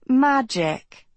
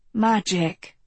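First: "Magic" echoed higher, mocking and dry; sarcastic. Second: Said in the usual way. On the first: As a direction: throw "Magic" back with a scoff. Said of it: "her voice laced with sarcasm". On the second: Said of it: "Ro replied".

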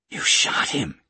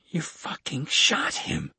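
First: Louder, narrated outraged yell. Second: Higher, drawn-out outraged cry; louder yell. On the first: Kate to the gunman after the shot, restrained yell. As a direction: yell it in shock, kept contained. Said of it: "Kate yelled". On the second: Kate accusing the gunman a second time, high slow cry. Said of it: "Kate said again, louder". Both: A narrator's reading.

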